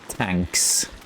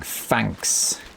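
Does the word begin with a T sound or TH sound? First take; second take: T sound; TH sound. First: The word begins with a plain T sound. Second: The word begins with a TH sound. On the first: The speaker calls it wrong. "you're not saying tanks" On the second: The speaker calls it right. "You're saying thanks"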